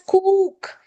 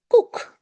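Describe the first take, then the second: First: The vowel is said long. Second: The vowel is said short. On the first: The speaker calls it wrong. "this is not pronounced as cook" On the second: The speaker calls it right. "This is just oo, cook"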